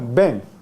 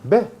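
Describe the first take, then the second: First: It ends in an n made at the back. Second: It ends in a vowel with no n. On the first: "Pero ¿cómo se pronuncia?" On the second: "O simplemente elimina"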